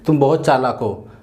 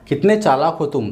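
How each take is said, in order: First: It is said in a plain, neutral tone. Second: It is said with a tone of surprise.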